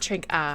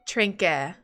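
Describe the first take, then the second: First: The final vowel sounds like 'ah'. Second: The final vowel sounds like 'eh'. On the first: The speaker calls it wrong. "not trink ah" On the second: The speaker calls it right. "So like eh, trinke"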